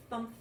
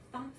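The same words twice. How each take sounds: The two takes are said the same way.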